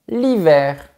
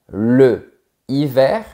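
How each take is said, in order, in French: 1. La voyelle de l'article est supprimée devant le nom. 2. La voyelle de l'article est gardée devant le nom. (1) "mais tu diras" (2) "Tu ne diras pas"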